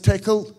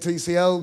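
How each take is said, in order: First: It is said as one word, tickle. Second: It is said as three separate letters. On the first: This is the officially intended pronunciation. "I'm technically supposed to pronounce tickle" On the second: This is the speaker's habitual pronunciation. "I'm going to keep calling it TCL"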